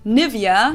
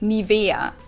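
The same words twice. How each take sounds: First: The stress is not on the E syllable. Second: The stress is on the E syllable.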